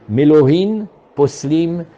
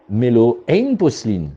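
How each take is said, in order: First: The second word begins with an h sound. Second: The second word begins without an h sound. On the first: A full measure of drawn water invalidates the mikveh. The speaker calls it right. "il y a une Mishnah qui dit" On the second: A full measure of drawn water does not invalidate the mikveh. The speaker calls it wrong. "ils ne savent pas prononcer"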